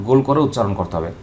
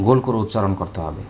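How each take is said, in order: Both takes have the same delivery.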